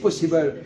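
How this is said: The word has an English pronunciation. "les Anglais disent possible"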